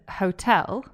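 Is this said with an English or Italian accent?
English. It has an English dark L at the end.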